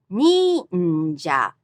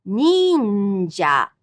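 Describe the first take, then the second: First: "Ninja" repeated with a clear fall; high-low pitch. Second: "Ninja" high on nin, low on ja; high-low pitch. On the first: Teacher repeating for students, high then low. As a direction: fall after nin in "Ninja". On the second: Teacher modelling pitch accent, high then low. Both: Shown as a demonstration. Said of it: "going from high to low".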